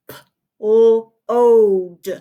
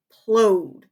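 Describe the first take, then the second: First: "P-O-O-D" as separate sounds, p, lll, oh, d; segmented "P-O-O-D", stretched middle sounds; sounds tapped out. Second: Said in the usual way. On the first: Shown as a demonstration. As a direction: sound out "P-O-O-D" loudly, one sound at a time. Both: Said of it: "let's tap out each syllable separately".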